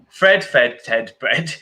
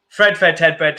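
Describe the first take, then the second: First: It is said at a quicker pace. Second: It is said at a very fast pace.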